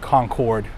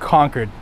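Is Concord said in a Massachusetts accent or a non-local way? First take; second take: non-local; Massachusetts. First: It is said the non-local, outsider way. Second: It is said the local Massachusetts way. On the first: The speaker calls it wrong. "not Concord, for those who don't do the Massachusetts accent" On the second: The speaker calls it right. "it's Concord"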